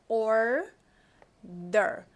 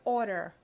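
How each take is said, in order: First: The syllables are said separately and carefully. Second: The syllables are blended together quickly. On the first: "R sempre é o R da porta, então a gente fala order" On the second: "no dia a dia a gente vai falar isso meio junto"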